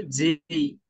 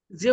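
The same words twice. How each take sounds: First: "যেই" drawn out into a gliding vowel; foreign-style J. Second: Said in the usual way. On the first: Shown as a demonstration. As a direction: stretch the letter J into "যেই". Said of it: "ওরা করে যেই". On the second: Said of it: "যে উচ্চারণ করি".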